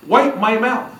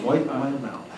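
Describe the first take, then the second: First: High-pitched imitation of a bossy woman; mock command. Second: Softer, dropped-voice echo of the order; quiet repeat. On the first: Mary ordering Henry at table, high mock command. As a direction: order a servant about in a higher voice. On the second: Retold or imitated. Scared guest echoing Mary's order, quiet aside.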